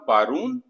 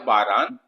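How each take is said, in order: First: The second syllable has a long 'oo' vowel. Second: The second syllable has a long 'aa' vowel. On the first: This is how native speakers say it in everyday speech. "वाव में कन्वर्ट कर दिया तो बना बारून" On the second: This is the standard written form. "इसमें अलिफ है"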